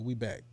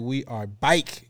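First: The vowel in 'back' is a short 'a'. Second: The vowel in 'back' sounds like 'bike'. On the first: The speaker calls it right. "I don't say bike. I just say we back" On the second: The speaker calls it wrong. "I don't know why people say it like that"

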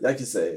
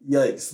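First: The final E is sounded as an extra syllable. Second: The final E is silent, giving one syllable. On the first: The speaker calls it wrong. "What does that mean?" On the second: The speaker calls it right. "The E is silent"

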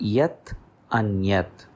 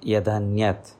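First: The two words are kept separate with a t. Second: The two words merge into one with a d.

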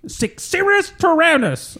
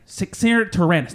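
First: It is said with strong passion. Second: It is said flatly, with little passion.

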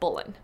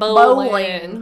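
First: The name is said fast, almost as one syllable. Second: The name is said slowly, with two clear syllables. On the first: "she said they say" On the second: "Americans put"

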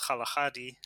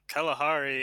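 First: The word is said in its native way. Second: The word is said in an anglicized way. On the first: This is the original local form. The speaker calls it right. "I think the actual word is" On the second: This is the form the British adopted. The speaker calls it wrong. "is actually a mispronunciation. It's like an anglicization"

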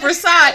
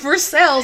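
First: The name is pronounced the French way. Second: The name is pronounced the local Kentucky way. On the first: The speaker calls it wrong. "It's not the castle of Versailles" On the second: The speaker calls it right. "It's the castle of Versailles"

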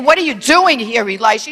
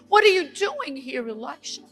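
First: It is said in a harsh, rebuking tone. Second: It is said in a gentle, inviting tone.

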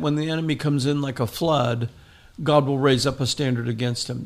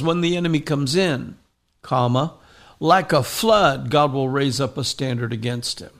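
First: It runs on with no break after 'comes in'. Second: There is a break after 'comes in'.

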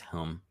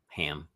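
First: The vowel sounds like the one in cup. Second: The vowel sounds like the one in cat. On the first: The speaker calls it right. "but it's hum" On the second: The speaker calls it wrong. "H-A-M, ham"

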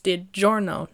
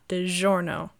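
First: The 'gi' is said as a 'j' sound. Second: The 'gi' is not said as a 'j' sound. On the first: The speaker calls it right. "if it's a G-I, it's a hard J" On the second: The speaker calls it wrong.

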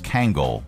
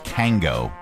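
First: The word ends with an L sound. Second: The word ends without an L sound. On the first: The speaker calls it right. "but it's Kangol" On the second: The speaker calls it wrong. "I always thought it was Kango"

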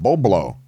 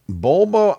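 First: The B sound comes before the L. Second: The L sound comes before the B. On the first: The speaker calls it right. "The B becomes before the L" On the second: The speaker calls it wrong. "You said it wrong"

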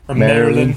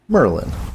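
First: The name is said with three syllables, as Marilyn. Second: The name is said with two syllables, as Merlin. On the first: It follows the written spelling of the name. "when I look at the spelling, I want to say Marilyn" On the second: It names the legendary wizard from England. "this is how I pronounce this"

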